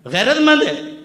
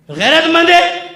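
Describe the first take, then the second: First: गैरतमंद है? with गैरतमंद stressed and a falling end; falling question. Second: गैरतमंद है? slow, है held long and loud; mocking question. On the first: Preacher pressing the crowd again, stress on गैरतमंद. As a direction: hit गैरतमंद and let it drop. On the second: Preacher taunting the crowd with the question, slow and drawn. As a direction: drag out the है like a jeering challenge. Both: Shown as a demonstration. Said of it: "repeats question to the crowd".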